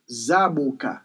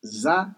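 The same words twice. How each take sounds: First: "zaboka" run together as za-boo-ka; Creole pronunciation. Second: "Zaboka" split into za, boo, ka; syllable-by-syllable Creole. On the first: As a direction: model "zaboka" in Creole as one word. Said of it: "So in Creole, it is". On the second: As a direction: break "Zaboka" up with long pauses between syllables. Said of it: "in Creole". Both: Shown as a demonstration.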